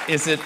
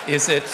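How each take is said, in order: Both takes have the same delivery.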